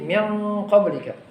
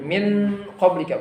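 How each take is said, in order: First: The sound before the q is heavy and thick. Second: The sound before the q is light and thin. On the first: The speaker calls it right. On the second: The speaker calls it wrong.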